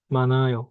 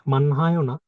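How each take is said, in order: First: মানায় with the h silent; correct reading. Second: মানহায় with a sounded h; the rejected way: মানহায়, h kept; wrong reading. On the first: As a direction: say মানায়, n straight into ay. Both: Shown as a demonstration.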